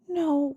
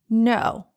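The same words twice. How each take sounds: First: It is said quietly and meekly. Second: It is said firmly.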